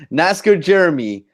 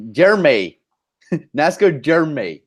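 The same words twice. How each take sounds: First: Said in the usual way. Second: Jeremy said as "Jer-may"; altered name pronunciation. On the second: Shown as a demonstration. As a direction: end Jeremy on a "may" sound, two syllables. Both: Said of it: "It's not Jeremy, it's Jeremy".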